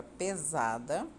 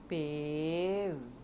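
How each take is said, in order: First: Said in the usual way. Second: "pesada" drawn out syllable by syllable; slow, softly sustained "pesada" for writing along; slow dictation. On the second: Real, not acted. Sounds out word while writing it.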